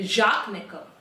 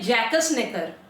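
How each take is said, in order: First: The first name has one syllable, ending in k. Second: The first name has two syllables, ending in s. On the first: It is the pronunciation given by an online source. "Google भाई साहब बोल रहे हैं कि इनको प्रोनाउंस करते हैं जाक नेकर" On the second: It is read the way it is spelled. "इसको जैसे हम पढ़ेंगे तो हम तो बोलेंगे जैकस नेकर"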